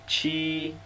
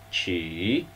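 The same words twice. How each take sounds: First: The pitch stays high and level. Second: The pitch dips low and then rises.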